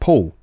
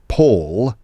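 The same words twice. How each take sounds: First: The final L is vocalized, sounding like W. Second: The final L is pronounced as a clear L. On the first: "someone with estuary English saying" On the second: "Rather than"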